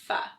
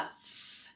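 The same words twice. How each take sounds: First: The f is followed by a voiced vowel. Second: The f is breath only, with no vowel. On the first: The speaker calls it wrong. "adding a vowel onto the end and saying like f, where that becomes a voiced consonant" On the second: The speaker calls it right. "you want to make sure that you're making it in an unvoiced sound"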